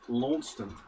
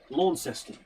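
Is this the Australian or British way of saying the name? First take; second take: British; Australian. First: It is said the British way. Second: It is said the Australian way. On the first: It names the town in Britain. "one of those places here, but it's pronounced Launceston" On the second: It names the city in Tasmania. "in Tasmania, there is a place called"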